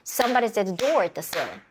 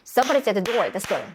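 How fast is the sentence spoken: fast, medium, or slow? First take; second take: medium; fast. First: The sentence is spoken at a moderately faster pace. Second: The sentence is spoken quickly with compressed beats. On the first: "조금 더 박수 빠르게 쳐볼까요?" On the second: "더 빠르게 쳐볼까요?"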